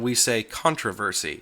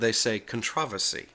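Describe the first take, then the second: First: It is said the American way. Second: It is said the British way. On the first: "In America, we say controversy" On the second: "In England, they say controversy"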